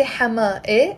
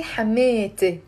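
First: Hama E as two separate pieces, hama plus e; "Hama E" without any t linking the ending; unjoined ending. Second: Hamete with a long middle ee and a pronounced t; "Hamete" with the t linking into the final e; joined possessive form. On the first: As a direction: say "Hama E" with the possessive e tacked on apart. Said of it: "I'm not gonna say". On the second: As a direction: say "Hamete" slowly as ha-MEE-te. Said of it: "I'm gonna say Hamete". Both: Shown as a demonstration.

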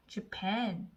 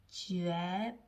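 First: Said in the usual way. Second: Japan stretched very slowly, 저-에-프-에-음; sounding out. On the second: Shown as a demonstration. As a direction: blend Japan slowly, one sound at a time. (Japan을 한 소리씩 아주 길게) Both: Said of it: "저".

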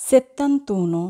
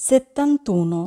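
The two takes are said the same way.

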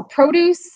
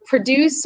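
First: Produce stressed on the second syllable, pro-DUCE; verb stress. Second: Produce stressed on the first syllable, PRO-duce; noun stress. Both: Shown as a demonstration. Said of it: "the accent changes what the word means".

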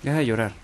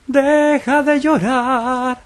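First: Said in the usual way. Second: Much higher, drawn-out mock preacher voice; mock solemn sermon. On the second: Gamer mocking a crying enemy in hammed-up solemn tones. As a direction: stretch each word like a grand speech.

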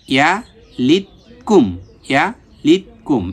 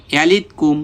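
First: "ইয়া, লিত, কুম" split with pauses; syllable by syllable. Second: "ইয়ালিত কুম" joined without breaking up "ইয়ালিত"; read in one go. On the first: Teacher drills the word for learners, "ইয়া, লিত, কুম" piece by piece. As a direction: break "ইয়ালিত কুম" into three separate pieces. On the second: Teacher pronounces the finished word once, "ইয়ালিত কুম" joined up. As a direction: run the syllables of "ইয়ালিত কুম" together. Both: Shown as a demonstration. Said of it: "এখন একবার উচ্চারণ করব".

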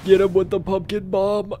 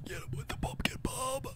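First: Said in the usual way. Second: Unvoiced whisper of "Get him with the pumpkin bomb". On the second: Whispered repeat of the order.

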